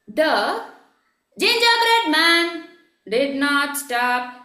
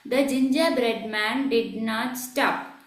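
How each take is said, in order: First: The voice moves up and down in pitch. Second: The voice stays flat with no pitch movement. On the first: "This is up and down" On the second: "was there any modulation in the voice? No"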